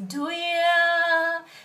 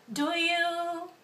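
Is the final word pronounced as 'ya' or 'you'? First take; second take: ya; you. First: The last word is reduced to a short 'ya'. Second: The last word is a full 'you' sound.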